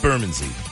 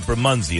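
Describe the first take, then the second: First: The name is pronounced the local British way. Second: The name is pronounced the American way. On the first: This is how locals say it. The speaker calls it right. "they say it's Bermondsey" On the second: This is how visitors from the US say it. The speaker calls it wrong. "We would say Bermondsey"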